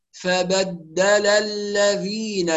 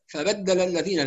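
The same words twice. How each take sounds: First: Slow "فبدل الذين", each short vowel completed; full vowels. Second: Quick "فبدل الذين" with short vowels cut; snatched vowels. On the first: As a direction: recite "فبدل الذين" in measured syllables. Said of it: "يبقى نتم الحركات". ("فبدل الذين" بإتمام الحركات وتمهّل) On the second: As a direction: demonstrate the error, rushing "فبدل الذين". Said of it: "ده اختلاس". ("فبدل الذين" مختلسة الحركات) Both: Shown as a demonstration.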